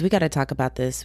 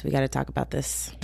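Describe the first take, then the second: First: Said in the usual way. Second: "We gotta talk about this" said much softer and lower, as an aside; quieter repeat. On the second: Shown as a demonstration. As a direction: drop the volume and mutter it to yourself.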